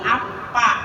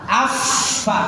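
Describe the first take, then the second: First: The middle consonant is a closed p sound. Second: The middle consonant is an f with air. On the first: The speaker calls it wrong. "bukan apa" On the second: The speaker calls it right. "Yang namanya fa itu ada angin keluar"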